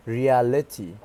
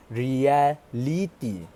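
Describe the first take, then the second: First: "reality" with a schwa before the -ty; schwa pronunciation. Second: "reality" with a full vowel in place of the schwa, drawn out; pronúncia com vogal plena. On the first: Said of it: "supposed to sound reality with a schwa". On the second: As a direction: say "reality" slowly with a full, unreduced vowel before the -ty. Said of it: "how did he pronounce it". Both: Shown as a demonstration.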